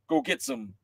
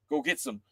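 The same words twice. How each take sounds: The two takes are said the same way.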